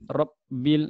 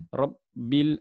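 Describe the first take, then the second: The two takes are said the same way.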